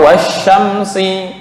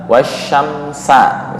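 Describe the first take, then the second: First: The word ends with an i vowel. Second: The word ends with an a vowel. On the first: "atau wasyamsi" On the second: "dibaca wasyamsa misalnya"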